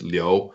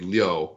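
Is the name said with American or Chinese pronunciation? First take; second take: Chinese; American. First: It is said with Chinese tones. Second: It is said with American English sounds. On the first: "if you use the correct tones, it's Liu" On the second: "if you're using American English, it would be Liu"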